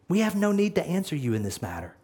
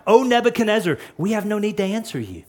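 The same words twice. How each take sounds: First: Fast, much softer, steady and resolute; quiet defiance. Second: Fast, firm refusal to the king; quick defiant reply. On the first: The three men calmly refusing Nebuchadnezzar, softly. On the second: The three men answering the enraged king, fast and firm. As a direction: rattle it off, unbothered. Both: Shown as a demonstration. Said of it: "notice what he says".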